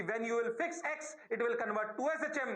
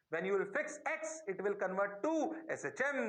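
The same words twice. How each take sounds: First: Said in the usual way. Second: Slow, spaced-out delivery; slow repeat. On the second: Shown as a demonstration. Teacher repeats the key rule to students, slowly. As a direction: draw out each phrase for the class. Same sentence repeated for emphasis.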